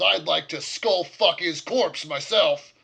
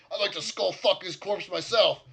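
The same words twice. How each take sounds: First: Much louder, slow seething threat; angry orc. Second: Louder, higher seething threat; angry orc. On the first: Orc innkeeper vowing revenge on the dead leader, loud and slow. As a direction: relish the threat slowly. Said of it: "Jakah says". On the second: Orc innkeeper repeating his vow of revenge, loud and higher. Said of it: "and so". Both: Acted.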